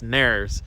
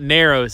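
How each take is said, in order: First: The name is said shortened, like nares. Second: The name is said like the word narrows. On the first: The speaker calls it right. "it's Nares" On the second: The speaker calls it wrong. "it's not Narrows"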